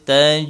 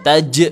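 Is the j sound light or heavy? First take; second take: light; heavy. First: The j sound is light and soft. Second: The j sound is heavy and pressed. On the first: The speaker calls it right. "nah itu diringankan huruf j-nya" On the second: The speaker calls it wrong. "bukan taj, bukan, jangan ya"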